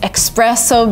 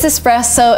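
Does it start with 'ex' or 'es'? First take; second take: ex; es. First: The word begins with an 'ex' sound. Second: The word begins with an 'es' sound. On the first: The speaker calls it wrong. "you're tempted to say espresso because of express and stuff" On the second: The speaker calls it right. "but no, it is espresso"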